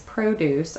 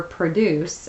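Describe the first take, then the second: First: First "produce" as PRO-duce; noun pronunciation. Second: Second "produce" as pruh-DUCE; verb pronunciation. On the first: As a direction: stress the first syllable of the first "produce". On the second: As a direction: stress the last syllable of the second "produce". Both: Shown as a demonstration. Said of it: "It can be pronounced".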